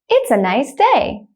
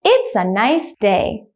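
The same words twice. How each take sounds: First: The sentence is spoken at normal speed. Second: The sentence is spoken slowly. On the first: "The second time I will say it at a normal speed, like a native speaker" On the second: "The first time I will say it slowly"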